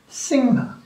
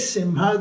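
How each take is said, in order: First: It is said with an ng sound before ha. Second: It is said with an m sound before ha. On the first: This is how people in Bengal say it. "they say Singha" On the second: This is how others outside Bengal say it. "they don't say Simha"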